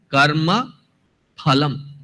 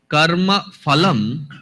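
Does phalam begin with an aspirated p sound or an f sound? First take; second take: aspirated p; f sound. First: Phalam begins with an aspirated p sound. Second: Phalam begins with an f sound. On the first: The speaker calls it right. "it is karma phalam" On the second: The speaker calls it wrong. "here it is not karma phalam"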